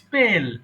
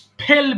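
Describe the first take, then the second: First: The p is said without a puff of air. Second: The p is said with a strong puff of air. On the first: The speaker calls it right. "বলেছি কি স্পেল" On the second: The speaker calls it wrong. "এখানে কিন্তু স্পেল বলিনি"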